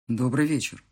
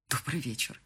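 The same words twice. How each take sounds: First: Slightly lower, stiff and official; cool, businesslike hello; husband's formal greeting. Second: Softer, flat mock of his stiff greeting; quiet bitter imitation; mocking the officialness. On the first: A narrator's reading. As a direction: greet her like a stranger. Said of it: "сказал мне Марат". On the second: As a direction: echo his cold hello under your breath. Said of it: "Как официально".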